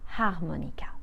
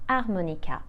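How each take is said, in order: First: The opening h sound is pronounced. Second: The opening h sound is silent. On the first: The speaker calls it wrong. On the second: The speaker calls it right.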